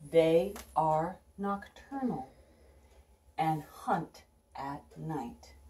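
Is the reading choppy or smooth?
smooth. The words flow together without halting breaks.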